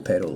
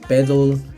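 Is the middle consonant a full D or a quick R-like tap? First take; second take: R-like tap; full D. First: The middle consonant is a quick R-like tap. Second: The middle consonant is a full D sound. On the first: The speaker calls it right. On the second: The speaker calls it wrong. "En lugar de decir"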